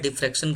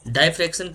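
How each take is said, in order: First: The first syllable has the vowel of 'dig'. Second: The first syllable has the vowel of 'die'. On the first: "कई लोग डिफ्रैक्शन pronounce करते हैं" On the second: "कई लोग डाइफ्रैक्शन इसको बोलते हैं"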